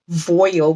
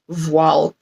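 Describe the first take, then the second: First: The word is said with English-sounding pronunciation. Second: The word is said with non-English-sounding pronunciation. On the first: The speaker calls it wrong. "I was pronouncing it with the English sounding of voile" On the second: The speaker calls it right. "it's actually supposed to be voile"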